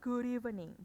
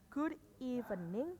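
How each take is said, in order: First: The two words run together without a break. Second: The two words are said separately with a break. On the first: The speaker calls it right. "Bacanya good evening" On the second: The speaker calls it wrong. "bukan good evening"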